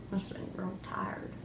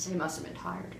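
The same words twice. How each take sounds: First: Hushed whisper. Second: Said in the usual way. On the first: Pretend. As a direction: whisper it under your breath. Kids playing newscast.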